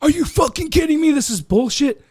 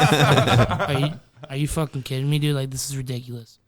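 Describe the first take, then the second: First: Outraged yell. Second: Sulky complaint. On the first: Hothead blowing up at the coworkers who pranked him, mock outraged yell. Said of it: "I wasn't the guy that". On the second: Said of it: "I took that route". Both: Retold or imitated.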